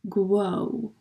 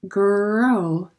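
First: The R is made with rounded lips, W-like. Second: The R is made with the tongue, unrounded. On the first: "See how my lips come forward? When I make the W sound" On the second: "nothing's really happening with my lips when I make that sound"

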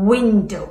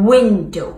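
Both takes have the same delivery.

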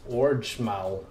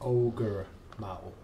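First: The R sound comes before the G sound. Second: The R sound comes after the G sound. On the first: The speaker calls it wrong. "I said orge mao. Made the I mixed up the R and the G" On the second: The speaker calls it right. "This is an ogre mao"

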